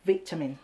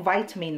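First: "วิตามิน" said as VIT-uh-min; British VIT opening on "วิตามิน"; British "vitamin". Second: "วิตามิน" said as VY-tuh-min; American VY opening on "วิตามิน"; American "vitamin". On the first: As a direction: say "วิตามิน" English-style with a short i. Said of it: "คนอังกฤษเรียกเหมือนเราเลยว่า". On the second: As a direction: say "วิตามิน" English-style with a long i. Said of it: "ทำไมฝรั่งเขาเรียก". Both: Shown as a demonstration.

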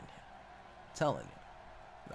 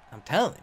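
First: Low, slow unvoiced whisper; deep whisper. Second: Said in the usual way. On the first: Shown as a demonstration. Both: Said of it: "repeated in deep whisper".

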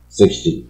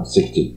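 First: British sixty, falling. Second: Sixty said with a clear American tune; American sixty, clearly said. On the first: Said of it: "英国人…都是往下". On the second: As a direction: say sixty crisply, stress up front. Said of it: "六十要sixty". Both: Shown as a demonstration.

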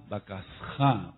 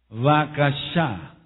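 First: "Bakasja" slow and lower, with S then Spanish jota; "Bakasja" in slow syllables, H sounded as J. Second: "Bakashá" slowly, syllable by syllable, with SH and final stress; Hebrew word demo. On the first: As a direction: teach "Bakasja" with a throaty J before final A. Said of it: "porque la H suena como J". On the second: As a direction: sound out "Bakashá" very slowly for learners. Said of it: "con acento en la última A". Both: Shown as a demonstration.

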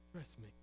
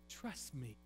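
First: Even softer and lower, almost breathed; God repeating his plea to Job, barely audible; whispered-soft plea. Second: Hushed, pleading trust me; God softly asking Job to trust; soft plea. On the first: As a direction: let it fade into a hush. God's tender plea repeated. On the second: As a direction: drop soft and low. God's tender plea to Job. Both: Acted.

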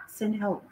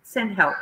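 First: Much softer, half to herself; muttered aside. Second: Said in the usual way. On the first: Real, not acted. Streamer muttering to herself after the TV mishap, quiet aside. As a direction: drop it to a mumble.

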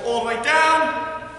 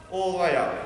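First: "down" held long on a raised pitch; drawn-out instruction. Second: "up" short, low and falling; dropping instruction. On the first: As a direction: stretch "down" to last the whole squat. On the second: Coach demonstrating the rise from a squat, "up" low and short. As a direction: let the pitch drop away to a short "up". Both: Shown as a demonstration. Squat demo, voice follows movement.

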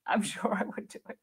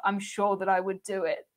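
First: A soft, airless laugh through the words; laughing under breath. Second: Said in the usual way. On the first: Real, not acted. Streamer to viewers, owning she'd book cheap, laughing softly. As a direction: giggle it out quietly, half to yourself. Repeats own line, then laughs.

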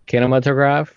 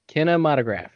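First: Kinematograph said as KIN-uh-muh-tuh-graf with an unsure rise; first try. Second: Kinematograph said as kin-uh-MAH-tuh-graf, settled falling tone; second try. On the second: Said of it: "Can you say it again?". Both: Shown as a demonstration.

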